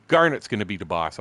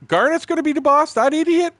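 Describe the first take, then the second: First: Said in the usual way. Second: High, loud yell of protest; retold indignant holler; outraged disbelief. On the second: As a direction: shout it back in utter disbelief. Retells his own outraged reaction.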